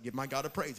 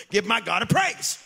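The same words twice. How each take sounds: First: Said in the usual way. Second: Louder, higher rallying call; loud call for praise. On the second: Real, not acted. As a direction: lift the crowd to shout praise.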